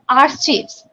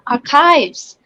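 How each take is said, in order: First: The h is heard as a sound. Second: The h is silent. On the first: The speaker calls it wrong. "It's not a archives" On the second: The speaker calls it right. "after C, H will be silent"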